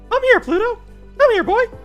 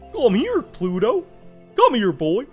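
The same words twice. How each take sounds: First: A put-on high, squeaky cartoon voice. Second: A put-on dopey, drawling cartoon voice. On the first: "in Mickey's voice" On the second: "Impression of Goofy"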